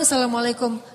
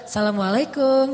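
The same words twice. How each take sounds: First: It is said as a plain, ordinary greeting. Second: It is said in a flirtatious, teasing tone.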